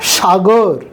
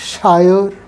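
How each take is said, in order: First: The middle consonant is a hard g sound. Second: The middle consonant is a soft y glide.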